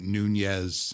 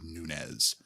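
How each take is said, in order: First: The second syllable starts with an 'ny' sound. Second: The second syllable starts with a plain 'n' sound. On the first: The speaker calls it wrong. "keep pronouncing it Nunez" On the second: The speaker calls it right. "It is correctly Nunez"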